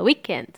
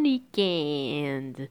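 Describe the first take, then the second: First: The word is said short and quick. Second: The word is said slowly and drawn out. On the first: The speaker calls it wrong. "O inglês fala weekend, né? Bem curto e rápido" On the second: The speaker calls it right. "O francês é bon weekend. Prolonga essa pronúncia"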